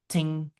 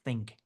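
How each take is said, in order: First: The word begins with a plain t sound. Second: The word begins with a th sound, tongue out. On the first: The speaker calls it wrong. "usually I'll hear stu- students saying" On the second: The speaker calls it right. "think with your tongue out"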